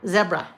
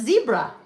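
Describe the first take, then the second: First: It is said the non-American way, like 'bed'. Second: It is said the American way, like 'see'.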